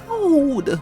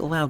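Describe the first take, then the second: First: The vowel is stretched out very long. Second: The vowel is short and plain. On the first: "you say it loud! ... fifteen unnecessary O's in the pronunciation" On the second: "you don't say it loud"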